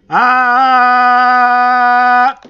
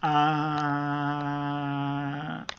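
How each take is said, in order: First: The vowel is said loudly, at high volume. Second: The vowel is said softly, at low volume.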